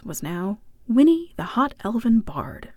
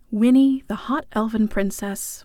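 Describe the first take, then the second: First: "elven" stressed, falling on "bard". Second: "hot" stressed in "the hot elven princess". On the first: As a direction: let "the hot elven bard" land flatly. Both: A narrator's reading.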